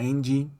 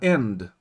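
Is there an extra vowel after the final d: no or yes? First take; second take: yes; no. First: An extra ee vowel follows the final d. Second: It ends cleanly on the final d sound. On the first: "aí você fala end" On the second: "Você quer falar end"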